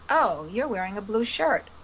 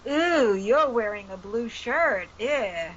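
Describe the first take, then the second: First: It is said in a neutral, observing tone. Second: It is said in a disapproving, judging tone.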